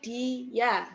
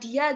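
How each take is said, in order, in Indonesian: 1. Kata ini dipisah menjadi dua suku kata. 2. Kata ini diucapkan menyatu sebagai satu suku kata. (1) "tapi dia. Berarti ada dua suku kata" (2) "bukan bukan dia gitu ya"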